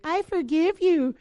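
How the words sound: It is said sincerely, with real meaning.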